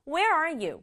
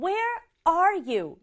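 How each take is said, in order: First: The stress is on "where". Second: The stress is on "are".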